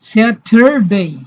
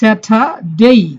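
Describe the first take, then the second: First: It has a curled r sound after the t. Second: It has no r sound after the t. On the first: "আমেরিকানরা আর এর উচ্চারণ করে, তবে জিহ্বা বাঁকা করে পেছনে নিয়ে যায়" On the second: "ব্রিটিশরা আর এর উচ্চারণ করে না, তাহলে উচ্চারণ হবে স্যাটারডে"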